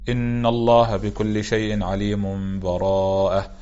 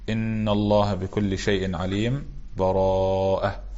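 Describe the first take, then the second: First: The last two words run together with no break. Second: There is a brief break without a breath between them. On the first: "الوجه الأول الوصل" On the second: "والوجه الثالث السكت"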